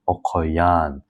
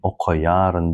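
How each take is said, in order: First: Two sounds are dropped and the vowel lengthened. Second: Every sound is pronounced, ending in -ryn. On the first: "we do not pronounce these two sounds, re and i" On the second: "it is correct to read it in this way"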